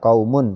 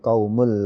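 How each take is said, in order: First: The word ends with a clear n sound. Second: The word ends with an l sound. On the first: The speaker calls it wrong. "tidak qaumun" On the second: The speaker calls it right. "masuk langsung"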